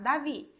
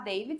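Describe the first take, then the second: First: It is said with Portuguese pronunciation. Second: It is said with English pronunciation. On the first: This is how people in Brazil say it. The speaker calls it wrong. "aqui a gente vai falar errado" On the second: This is how people abroad say it. The speaker calls it right. "lá eles vão falar David"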